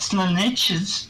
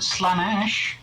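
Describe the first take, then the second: First: The name is said with three syllables. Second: The name is said with two syllables. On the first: The speaker calls it wrong. "It's not Slaaneches" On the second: The speaker calls it right. "we all call it Slaanesh"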